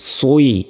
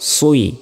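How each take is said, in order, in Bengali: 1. এই স্বরধ্বনিটি গোল ঠোঁট দিয়ে শুরু হয়। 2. এই স্বরধ্বনিটি গোল ঠোঁট দিয়ে শুরু হয়।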